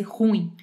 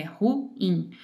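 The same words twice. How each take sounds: First: "ruim" numa sílaba só, como ditongo. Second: "ruim" em duas sílabas, ru-im separado; ruim como hiato. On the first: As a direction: diga "ruim" juntando as vogais, ru-im colado. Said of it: "Não é um ditongo pra fazer ruim". (professora mostra "ruim" errado, como ditongo) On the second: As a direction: diga "ruim" separando bem o u do i. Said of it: "é ruim". (professora mostra "ruim" certo, em hiato) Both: Shown as a demonstration.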